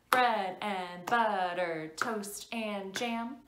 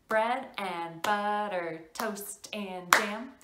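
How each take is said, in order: The two takes are said the same way.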